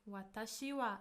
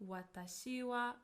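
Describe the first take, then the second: The two takes are said the same way.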